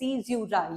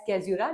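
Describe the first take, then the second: First: The word begins with an s sound. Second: The word begins with a k sound. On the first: The speaker calls it right. "This is pronounced as सीज्यूरा" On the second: The speaker calls it wrong. "Wrong pronounce करते होंगे as कैज्यूरा"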